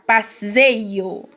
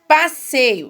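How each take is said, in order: First: The middle consonant sounds like a buzzing z. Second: The middle consonant sounds like a hissing s. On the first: The speaker calls it wrong. "se eu tivesse um S aqui, ia ficar passeio" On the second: The speaker calls it right. "já mudou, né? Com os dois S, o S fica com o som lá do sa"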